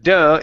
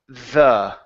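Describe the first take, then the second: First: It starts with a hard d sound. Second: It starts with a soft th sound. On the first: The speaker calls it wrong. "here you're saying duh" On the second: The speaker calls it right. "it's the"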